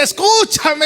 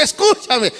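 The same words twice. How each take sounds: First: High, urgent call to the passer-by; wisdom shouting. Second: Softer second call. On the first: Wisdom calling out to the fool, a high urgent shout. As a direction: cry out to make the fool listen. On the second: Wisdom repeating her call to the fool, a gentler plea. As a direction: let the second call fall back. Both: Acted. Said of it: "la sabiduría le grita".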